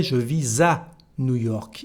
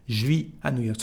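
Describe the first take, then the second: First: "je vis à" linked with a Z sound before "à"; full "je vis à", ending "vee-zah"; S liaison. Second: "Je vis à" contracted to "zhvee ah"; "Je vis" as one syllable, unlinked to "à"; no liaison. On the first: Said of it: "new liaison here between S and A". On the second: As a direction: keep the S of "vis" silent before "à". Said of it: "there is no liaison". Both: Shown as a demonstration.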